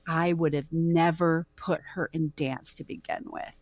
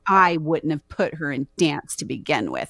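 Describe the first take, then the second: First: It is said slowly. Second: It is said at normal speed.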